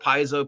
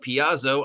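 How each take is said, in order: First: The name is said in its usual form. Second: The name is said with its vowels swapped around. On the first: The speaker calls it right. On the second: The speaker calls it wrong.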